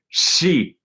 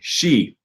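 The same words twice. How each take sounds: First: The first sound is a plain 's' hiss. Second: The first sound is a hushing 'sh' sound. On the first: The speaker calls it wrong. "it's gonna sound like an s most of the time" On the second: The speaker calls it right. "instead of saying she"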